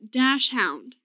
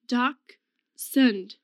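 First: The first part sounds like 'dash'. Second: The first part sounds like 'docks'. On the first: The speaker calls it wrong. "so many people pronounce it dash hound" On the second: The speaker calls it right. "You don't pronounce that dash"

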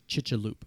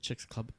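First: The name has no ks sound. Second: The name has a clear ks sound. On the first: The speaker calls it right. "there's no X in Spanish or in Mayan, so it's actually pronounced Chichaloop" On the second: The speaker calls it wrong. "I pronounce it Chicks Club"

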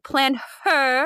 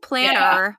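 First: It is said with a clear h sound. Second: It is said without an h sound. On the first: The speaker calls it right. "I'm like, plan her. ... Don't drop your H's" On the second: The speaker calls it wrong. "So no one's like, I went to the planner call"

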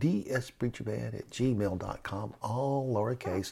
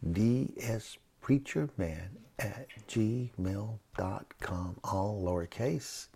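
First: It is said at a normal, quicker pace. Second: It is said slowly and deliberately.

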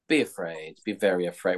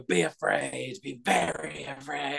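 First: It is said in a calm, understated way. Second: It is said in an intense, dramatic way.

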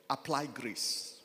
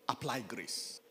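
Both takes have the same delivery.

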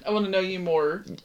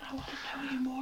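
First: It is said in a plain voice. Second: It is said in a breathy voice.

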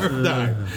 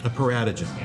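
First: The word is said as 'para-dime'. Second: The word is said as 'para-ta-gem'. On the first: The speaker calls it right. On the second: The speaker calls it wrong.

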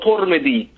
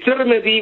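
First: The first vowel is a 'u' sound. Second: The first vowel is an 'i' sound. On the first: "with a Dhamma" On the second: "with a Kesra"

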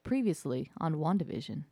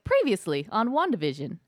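First: It is said flatly, with enthusiasm gone. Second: It is said with lively enthusiasm.

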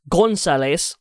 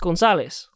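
First: The stress is not on the second-to-last syllable. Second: The stress is on the second-to-last syllable. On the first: The speaker calls it wrong. "no one says Gonzalez" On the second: The speaker calls it right. "the emphasis is on the second last syllable. It's Gonzalez"

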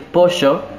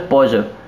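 First: It is said in a Buenos Aires accent. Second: It is said in a mixed regional accent.

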